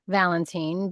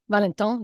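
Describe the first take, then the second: First: The name ends like English 'vine'. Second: The name ends with a French nasal vowel. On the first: "it's just pronounced Lisanne Valentine" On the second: "you can pronounce it Lisanne Valent Valentin. Valentin, that's what it was. Yeah, it sounds cool"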